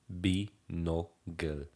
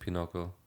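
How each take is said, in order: First: The word begins with a B sound. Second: The word begins with a P sound. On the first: This is how it is said in Europe. "the real pronunciation" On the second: This is how it is said locally. "here they pronounce it Pinocle"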